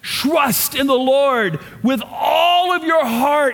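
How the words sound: It is read with strong, passionate emotion. The speaker calls it right. "they would go, batak, ... It's an emotional word"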